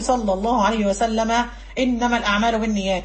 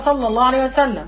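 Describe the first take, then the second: First: Runs straight on with the final vowel kept. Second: Full stop after the word, final vowel dropped. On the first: The phrase continues without a break. "لكن أنا هكمل" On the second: The phrase is treated as ended. "وقف ... سكنت الكلمة لأنه وقفت"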